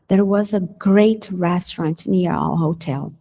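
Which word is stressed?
great. The emphasis falls on the word great. The restaurant was excellent. "eu boto ênfase aonde? No great"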